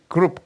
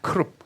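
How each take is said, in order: First: The word starts with a soft G sound. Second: The word starts with an aspirated K sound. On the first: It sounds like the English word group. "영어의 그룹과 너무나 우리말이 똑같기 때문에" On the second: It follows the Hebrew pronunciation. "히브리어 발음도 크룹이지"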